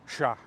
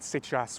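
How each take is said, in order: First: The word is one syllable with no final consonant. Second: The word has two full syllables. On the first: "it gets even shorter than chasse" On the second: "Nobody says c'est chasse"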